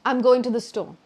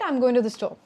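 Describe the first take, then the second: Both takes have the same delivery.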